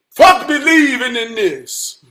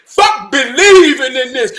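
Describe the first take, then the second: First: Slow, weighted stress on "Fuck"; emphatic declaration. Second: Loud, with "believing" punched hard; emphatic repeat. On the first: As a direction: declare it slowly, falling away after "Fuck". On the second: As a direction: hammer it out, stressing "believing". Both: Real, not acted. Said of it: "I got to say it like that".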